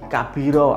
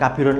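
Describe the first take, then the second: First: The word ends with a long open vowel. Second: The word ends with a short 'un' sound. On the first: The speaker calls it right. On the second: The speaker calls it wrong.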